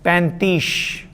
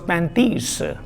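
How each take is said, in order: First: The word ends with an sh sound. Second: The word ends with an s sound. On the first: The speaker calls it wrong. "he said pantish" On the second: The speaker calls it right. "the word was pantis"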